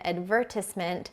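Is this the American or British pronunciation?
British. It is said with a British pronunciation.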